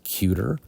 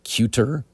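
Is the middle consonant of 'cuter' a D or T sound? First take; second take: D sound; T sound. First: The middle consonant sounds like a D. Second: The middle consonant is a clear T sound. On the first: The speaker calls it right. "a T to D sound switch" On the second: The speaker calls it wrong. "instead of cuter"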